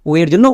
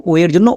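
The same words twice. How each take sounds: No difference in how they are said.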